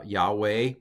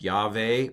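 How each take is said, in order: First: "Yahweh" with a W in the middle, YAH-way; older pronunciation. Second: "Yahweh" with a V in the middle, YAH-vay; modern pronunciation. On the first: Teacher gives the older name of God, "Yahweh" with W. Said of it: "and the older pronunciation". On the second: Teacher pronounces the name of God, "Yahweh" with V. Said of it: "which is pronounced". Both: Shown as a demonstration.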